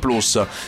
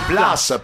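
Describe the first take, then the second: First: The vowel is an Italian 'oo' sound. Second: The vowel is an English 'uh' sound. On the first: It follows the Latin origin. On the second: It follows the English brand name.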